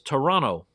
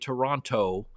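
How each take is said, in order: First: The t after the n is dropped. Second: The t after the n is pronounced. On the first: The speaker calls it right. "it's Toronto. T O R O N N O" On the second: The speaker calls it wrong. "You don't say Toronto"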